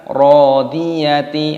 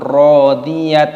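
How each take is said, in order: First: The word ends with a full ti syllable. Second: The word ends in a clipped t sound. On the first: "bukan rodiyati" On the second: "ataupun rodiyat"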